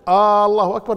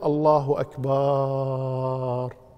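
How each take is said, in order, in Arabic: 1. الحركة الأولى في العبارة تُمَدّ. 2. الحركة بعد الباء تُمَدّ. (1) "لكن لو قال مد الألف الله أكبر لا يجوز" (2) "ولا يجوز أن يقول الله أكبر يمد الباء"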